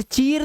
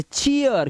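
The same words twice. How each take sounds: First: चीर with one long "ee" into r; wrong single vowel. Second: चीयर as "chee-yar", ee gliding to a; correct glide. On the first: Teacher showing the misreading, one-syllable चीर. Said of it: "अब इसे चीर नहीं पढ़ना है". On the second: Teacher giving the correct reading, gliding चीयर. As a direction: open चीयर into two syllables. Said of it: "इसे चीयर". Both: Shown as a demonstration.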